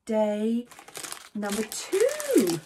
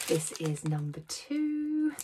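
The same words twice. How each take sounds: First: Slow, stretched "number two" building suspense; drawn-out reveal. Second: Said in the usual way. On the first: Acted. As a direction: draw out "two" like a big reveal. Opening Advent calendar suspense.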